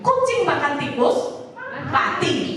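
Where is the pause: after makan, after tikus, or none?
after tikus. There is a pause after tikus. A cat ate a rat and then the cat died. "Habis makan tikus terus mati"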